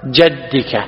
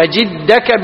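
First: "جدك" with an a and no hamza, jaddika; "جدك" pronounced jadd, not jidd; fatha on the jim. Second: "أجدك" with an i, ajiddaka; "أجدك" pronounced with jidd, not jadd; kasra on the jim. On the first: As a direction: say "جدك" as JAD-di-ka, dropping lower. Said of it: "فترويها بالفتح". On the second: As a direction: say "أجدك" as a-JID-da-ka. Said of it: "بالكسر". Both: Shown as a demonstration.

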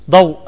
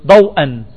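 First: Said in the usual way. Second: "ضوءا" pronounced daw-an; tanween with fatha. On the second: Shown as a demonstration. Teacher models adding tanween, "ضوءا" ending -an. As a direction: finish "ضوءا" on a clear -an. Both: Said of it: "نونها".

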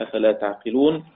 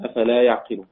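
First: تعقلون with a clear t- sound at the start; تعقلون pronounced ta'qilun, with a t. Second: يعقلون with a clear y- sound at the start; يعقلون pronounced ya'qilun, with a y. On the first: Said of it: "بتاء الخطاب". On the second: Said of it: "والباقون بياء الغيب". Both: Shown as a demonstration.

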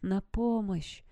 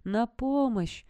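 First: Slow, drawn-out cry for help; faint distant call. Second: Higher, drawn-out cry; slow, clearer plea from close by; nearer call for help. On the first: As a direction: call weakly from far away, stretching the words. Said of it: "слабый, но отчётливый голос Питера, который звал откуда-то издалека". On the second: Peter calling from nearer in the woods, higher slow cry. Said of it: "на этот раз голос оказался ближе". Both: A narrator's reading.

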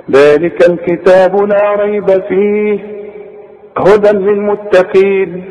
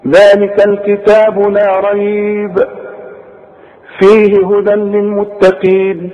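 First: Slow recitation joining ريب to فيه, then a break; pause after فيه. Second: Slow recitation broken after ريب, resuming at فيه; pause after ريب. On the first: Teacher demonstrates second way of reading, pausing after فيه. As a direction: chant through ريب and halt after فيه. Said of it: "اثنين". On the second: Teacher demonstrates first way of reading, pausing after ريب. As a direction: chant it slowly, halting on ريب. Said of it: "ادي واحدة". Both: Shown as a demonstration.

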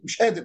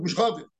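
First: Said in the usual way. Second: قادر said as غادر; qaf as ghain. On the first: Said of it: "أنا مثلًا أقول". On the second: Shown as a demonstration. Teacher contrasts his own قادر with the village gh. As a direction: swap the q in قادر for gh. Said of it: "هو يقول".

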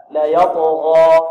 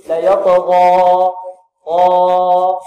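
First: يطغى with the final alif held exactly two counts; مد حركتين; correct two counts. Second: يطغى with the final alif stretched well past two counts, half sung; مد زائد; overlong vowel. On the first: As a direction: hold يطغى for just two beats. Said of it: "حركتان". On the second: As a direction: drag out يطغى far too long, chanting. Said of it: "لعل بعض الطلاب يقول". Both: Shown as a demonstration.

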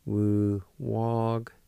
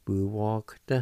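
First: Said slowly, each syllable drawn out; slow demo. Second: Said in the usual way. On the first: Shown as a demonstration. Teacher to students, modelling Wu walked slowly. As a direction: draw out Wu walked for the learner. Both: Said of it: "like this".

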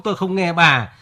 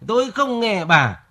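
First: Said in the usual way. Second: "Tôi không nghe bà" higher and slow, singsong mockery of her nagging; mocking wife's refrain. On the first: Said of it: "Vẫn cái điệp khúc". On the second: Husband mocks his wife's nagging refrain, slow and higher. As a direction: parrot her nagging line slowly. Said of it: "Vẫn cái điệp khúc tôi không nghe bà".

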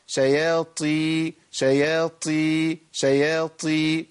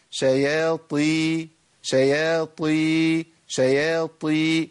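First: شياطي slowly with the ط turned into a breathy ت; wrong breathy taa. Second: شياطي very slowly with a full emphatic ط and no breath; correct taa. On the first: Teacher repeating the wrong breathy شياطي so students hear it. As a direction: say شياطي slowly, letting air leak on the ط. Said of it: "الخطأ". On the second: Teacher giving the right reading of شياطي, slow and careful. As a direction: hold شياطي slowly, the ط heavy and voiced. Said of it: "ده الصواب". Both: Shown as a demonstration.

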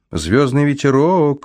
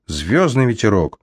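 First: High, slow call after someone; shouting after her. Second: Said in the usual way. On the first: A narrator's reading. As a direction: call her name after her as she flies off. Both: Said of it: "крикнул я вдогонку".

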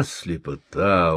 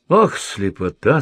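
First: Grieving lament. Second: "Ох, слепота" sighed out, rising at the end; a mild sorrowful wail of "слепота" with a lift; grieving lament. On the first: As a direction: drag "слепота" down heavily in sorrow. (медленно, горестно, «слепота» с падением вниз) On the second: (горестное «Ох, слепота» с подъёмом в конце) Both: A narrator's reading. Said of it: "загоревал Гой".

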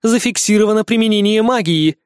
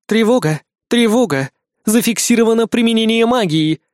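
First: Metallic alarm announcement repeated; loud robotic loudspeaker voice; air raid loudspeaker. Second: Metallic alarm announcement; loud robotic loudspeaker voice; air raid loudspeaker. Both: Acted. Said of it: "железный голос из громкоговорителей".

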